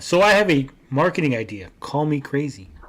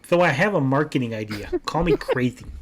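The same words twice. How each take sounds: First: It is read in his normal voice. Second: It is read in a put-on Rab voice.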